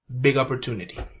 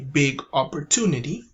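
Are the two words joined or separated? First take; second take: joined; separated. First: The two words are linked together. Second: The two words are said separately. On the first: The speaker calls it right. "regular people would just say big opportunity" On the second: The speaker calls it wrong. "We do not say big opportunity"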